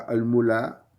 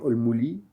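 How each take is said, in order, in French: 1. Le L est suivi d'une voyelle a. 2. Le L est suivi d'une voyelle i. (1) "on ne dit pas al-mula" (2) "ou bien al-muli"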